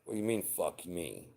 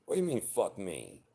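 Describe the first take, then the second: First: Said in the usual way. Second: Sharp indignant cry, far higher on do; indignant outburst. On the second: Acted. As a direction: snap back at a partner's rude look, much higher. Imagined fight over a look.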